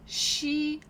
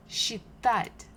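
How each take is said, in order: First: Считать split in two, with a long high first syllable. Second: Said in the usual way. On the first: Shown as a demonstration. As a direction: break считать into slow, separate syllables, pausing between them. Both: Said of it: "read these words together".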